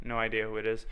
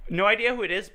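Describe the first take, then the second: First: Said in the usual way. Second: High, sing-song mocking voice; mocking imitation. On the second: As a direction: parrot him in a higher voice. Mimics friend's line, mocking pitch.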